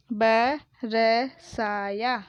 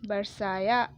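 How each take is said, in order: First: बरसाया broken into ba, ra, saa, yaa; बरसाया letter by letter with gaps between; spelled out. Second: Said in the usual way. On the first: Shown as a demonstration. Teacher sounding out बरसाया for pupils, syllable by syllable. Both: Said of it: "मैंने इस तरीके से पढ़ा".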